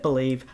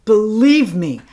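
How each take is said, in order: First: Said in the usual way. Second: "Believe" punched louder, pun on the brand; punning emphasis. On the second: Shown as a demonstration. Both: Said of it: "Get it?".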